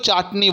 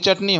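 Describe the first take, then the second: First: The first vowel is an open 'aa' sound. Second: The first vowel is a short 'uh' sound. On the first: This is the Bengali pronunciation. "আমরা বাংলায় চাটনি বলি" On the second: This is the Hindi pronunciation. "Hindi में वो आकार नहीं आएगा"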